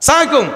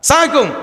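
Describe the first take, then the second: First: The greeting is clipped and slurred together. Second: The same.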